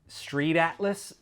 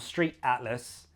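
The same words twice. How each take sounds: First: The T is flapped into a soft D. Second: The T is not flapped into a D. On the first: The speaker calls it wrong. "sounds very American" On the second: The speaker calls it right. "you'd still say street atlas"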